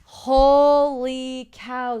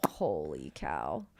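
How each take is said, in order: First: Slow, loud, high stunned exclamation. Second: Slow, much lower, awed mutter; low stunned. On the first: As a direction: drag it out in shock. Reacting to the plot twist. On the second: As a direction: drop the voice in disbelief. Repeats reaction lower. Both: Real, not acted.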